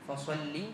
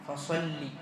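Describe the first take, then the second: No difference in how they are said.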